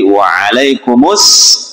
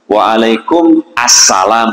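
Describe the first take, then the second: First: The m links straight into the next word. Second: The words are split apart, not linked. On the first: The speaker calls it right. "mimnya itu dikasih harokat domma" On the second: The speaker calls it wrong. "itu nggak nyambung namanya"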